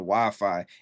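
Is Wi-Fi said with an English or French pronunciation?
English. It is said with an English pronunciation.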